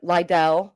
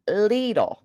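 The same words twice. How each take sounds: First: "Lidl" as LIE-dell, rising; alternative pronunciation. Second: "Lidl" as LEE-dle; rhymes with needle. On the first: Shown as a demonstration. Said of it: "what is it, Lidl?". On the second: Retold or imitated. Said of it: "she told me, like, needle".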